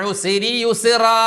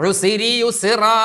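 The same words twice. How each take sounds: No difference in how they are said.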